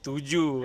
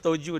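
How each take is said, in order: First: The first vowel sounds like 'u'. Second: The first vowel sounds like 'o'. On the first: The speaker calls it right. "the pronunciation is Tuju" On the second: The speaker calls it wrong. "Saya pun pronounce Toju, dan dorong kasih tau, ih salah"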